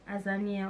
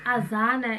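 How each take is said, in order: First: The name ends in a 'nia' sound with 'ee'. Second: The name ends in a plain 'na' sound. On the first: The speaker calls it wrong. "there is no I" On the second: The speaker calls it right. "It's simple. Like you read it the same way you say it"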